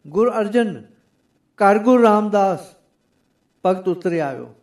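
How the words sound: The pause comes right after 'Arjan'.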